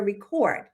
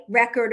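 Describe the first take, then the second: First: Record as ree-KORD, stress on second syllable; verb pronunciation. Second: Record as REK-erd, stress on first syllable; noun pronunciation. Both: Shown as a demonstration. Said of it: "either way is correct".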